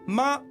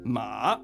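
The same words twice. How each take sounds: First: The pitch stays high and level. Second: The pitch dips low, then rises. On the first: It means mother. "ça veut dire mère" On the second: It means horse. "ça veut dire cheval"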